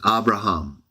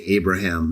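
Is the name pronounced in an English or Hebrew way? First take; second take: Hebrew; English. First: The name is pronounced the original Hebrew way. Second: The name is pronounced the usual English way. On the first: "I know how to pronounce it" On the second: "Sometimes in English we say Abraham"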